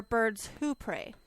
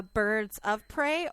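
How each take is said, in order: First: Slow delivery with "Who" punched; stress on Who. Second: Slow delivery with "of" punched; stress on of. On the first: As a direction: lean on "Who" to mark the contrast. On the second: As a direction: lean on "of" to set up a contrast. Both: Shown as a demonstration. Contrasts two readings of a phrase.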